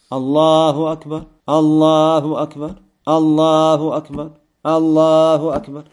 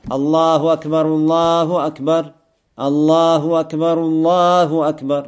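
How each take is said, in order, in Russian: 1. Каждая из четырёх фраз отделена паузой. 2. Фразы идут парами, одна пауза посередине. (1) "То есть все четыре слова отдельно произносить" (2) "Пара, пара. ... Перерыв между каким? Вторым и третьим"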